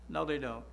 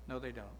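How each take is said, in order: First: Said in the usual way. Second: No, they don't, dropped much softer and lower; soft echo. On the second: Real, not acted. Preacher repeating his rebuttal to the congregation, hushed. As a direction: let No, they don't fall away under the breath.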